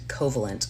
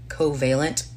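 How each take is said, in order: First: The word is said in the speaker's everyday way. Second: The word is said in a careful, deliberate way. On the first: This is how the speaker would naturally say it. "I would normally pronounce it covalent" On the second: This is meant as the show's own pronunciation. "I'm going to say this right, hopefully"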